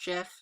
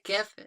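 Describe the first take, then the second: First: The word begins with a j sound. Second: The word begins with a hard g sound. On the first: The speaker calls it wrong. "it's not GIF, because that's like how the peanut butter is spelled" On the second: The speaker calls it right. "I call it GIF"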